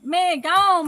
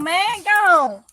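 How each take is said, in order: First: Man, gone called out higher and louder; excited shooing. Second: Man, gone pushed louder and higher; a louder, higher second man, gone; louder shooing. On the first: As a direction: shoo it away with a shout. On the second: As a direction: shoo it off harder. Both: Real, not acted.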